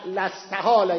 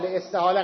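First: The word opens with a short 'la' syllable. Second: The word opens with a short 'li' syllable. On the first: The prefix is emphatic: it has surely become impossible. The speaker calls it right. "لاستحاله یعنی لام تأکیده" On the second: The prefix marks a reason: because it is impossible. The speaker calls it wrong. "لاستحاله غلطه"

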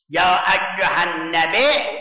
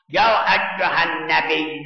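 First: Nabi ends with a glottal stop after the vowel. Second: Nabi ends in a plain long vowel, no glottal stop. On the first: This is the non-Quraysh dialect form. "این غیر قریشه" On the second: This is the Quraysh dialect form. "این قریشیه"

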